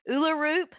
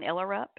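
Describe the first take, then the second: First: The name begins with an 'oo' sound. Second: The name begins with an 'er' sound. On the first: The speaker calls it right. "The gentleman in the commercial said Uluroop" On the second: The speaker calls it wrong. "I mispronounced her last name. I was saying Erlerup"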